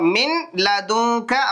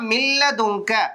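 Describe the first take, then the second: First: The n is pronounced before the l. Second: The n merges into a doubled l sound. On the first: "இந்த நூனே சாக்கினை விட்டுட்டு" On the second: "நேரா மில்லதூக்க"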